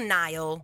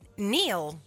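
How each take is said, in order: First: The vowel sounds like 'eye', as in Nile. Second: The vowel sounds like 'ee', as in Neil. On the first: The speaker calls it wrong. "Non Nile" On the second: The speaker calls it right. "E si pronuncia però Neil, giusto?"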